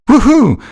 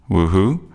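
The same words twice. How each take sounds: First: It is said loudly and enthusiastically. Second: It is said quietly and hesitantly.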